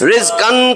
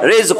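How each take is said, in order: First: The word ends with a drawn-out aan sound. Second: The word ends abruptly on the q sound. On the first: The speaker calls it wrong. "টান দেওয়া যাবে না" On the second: The speaker calls it right. "থামলে"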